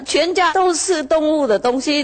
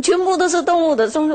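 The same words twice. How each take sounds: First: Higher whining farmer voice, leaning on 都, ending in a rise; complaining farmer. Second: Higher and faster, leaning on 全, ending in a rise; complaining farmer. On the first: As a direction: raise it up and lean on 都 as he complains. (农夫向师父诉苦，高声强调"都") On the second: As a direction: rush it out higher, hitting 全. (农夫向师父诉苦，加快语速强调"全") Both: Retold or imitated.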